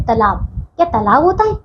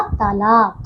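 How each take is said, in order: First: तालाब with a short first vowel, "ta-laav"; mispronounced word. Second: तालाब with a long first "taa"; correct pronunciation. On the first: Teacher shows pupils the misspelt word, mispronounced. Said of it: "अशुद्ध शब्द लिखा है". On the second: Teacher gives pupils the correct word, carefully pronounced. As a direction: draw out both long vowels in तालाब. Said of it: "शुद्ध शब्द होगा". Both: Shown as a demonstration.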